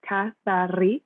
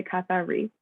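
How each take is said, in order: First: "Kathari" in Greek with a rolled R, said slowly; Greek pronunciation. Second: Said in the usual way. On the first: Shown as a demonstration. Designer showing the audience the Greek way, rolled R. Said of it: "I will roll my R's". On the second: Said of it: "Or you can just say".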